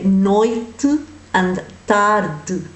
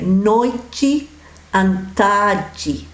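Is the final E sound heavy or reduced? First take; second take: reduced; heavy. First: The final E is reduced and barely pronounced. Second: The final E is pronounced fully and heavily. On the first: "whereas we would just say" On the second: "The Brazilians tend to say go heavy on the E"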